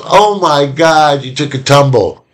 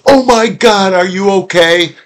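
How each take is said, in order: First: Lightly acted parent making light of a fall; amused parent. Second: High-pitched, panicked parental concern; acting out a parent's alarm over a fallen child. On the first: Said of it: "If the parent laughs and goes". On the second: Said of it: "if the parent goes".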